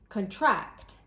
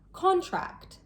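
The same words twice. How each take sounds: First: The stress is on the second syllable. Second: The stress is on the first syllable. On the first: It is the verb meaning to become smaller. "Did you notice the stress was placed on a different part of the word each time?" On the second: It is the noun meaning a formal agreement. "the stress is placed on the first syllable"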